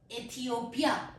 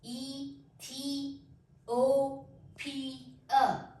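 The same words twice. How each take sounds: First: Said in the usual way. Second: ईथियोपिया said very slowly, syllable by syllable; broken into syllables. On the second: Shown as a demonstration. Teacher shows students the syllables of ईथियोपिया, very slowly. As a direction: stretch out ईथियोपिया, one syllable at a time. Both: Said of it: "इसके नीचे lines लगाई हैं".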